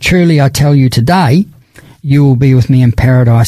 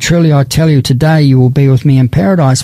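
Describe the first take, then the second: First: The pause comes after 'today'. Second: The pause comes before 'today'.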